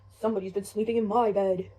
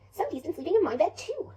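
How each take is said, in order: First: Low, loud big bear voice; Papa Bear. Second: High, loud, lilting mother bear; Mama Bear. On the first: Father bear seeing his bed was slept in, deep and loud. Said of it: "Papa Bear comes over". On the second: Mother bear seeing her bed was slept in, high and indignant. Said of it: "Mama Bear comes over". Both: Acted.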